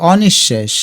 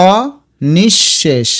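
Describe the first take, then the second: First: Said in the usual way. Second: অনিঃশেষ very slowly as o, nish-shesh; syllable by syllable. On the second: Shown as a demonstration. Teacher showing students how it sounds, অনিঃশেষ slowly split o-nish-shesh. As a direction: draw out and split অনিঃশেষ, doubled sh. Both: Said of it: "আমরা উচ্চারণটা দেখো এভাবে করলাম".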